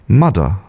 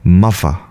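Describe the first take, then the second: First: The middle sound is a d. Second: The middle sound is an f. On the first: "more like a T or a D, like mudder" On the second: "more like an F"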